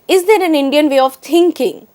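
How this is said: The stress falls on the word thinking. "emphasizes the word thinking itself"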